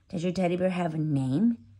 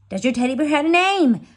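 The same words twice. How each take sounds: First: The question is said at normal volume. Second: The question is said more loudly.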